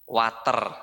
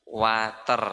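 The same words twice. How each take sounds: Both takes have the same delivery.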